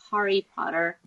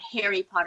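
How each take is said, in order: First: It is said with an American accent. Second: It is said with an Australian accent. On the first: The speaker calls it right. "It's Harry Potter" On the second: The speaker calls it wrong. "It's not Harry Potter"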